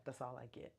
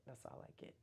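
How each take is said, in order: First: Said in the usual way. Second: Breathy aside to herself; whispered repeat. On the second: Shown as a demonstration. Repeating her limit to viewers in a whisper. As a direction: whisper the line, no voice.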